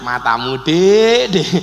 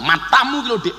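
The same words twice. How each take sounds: First: Playful, teasing address; joking. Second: Mild mock scolding; angry. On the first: Husband joking with his wife, playful teasing. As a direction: tease a spouse with a drawn-out Dik. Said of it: "Tapi lak guyon". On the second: Husband cross with his wife, mock-angry retort. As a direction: snap at a spouse, lightly acted. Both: Shown as a demonstration.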